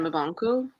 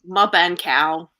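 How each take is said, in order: First: The name is said naturally, in a normal voice. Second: The name is mangled, imitating a computer voice.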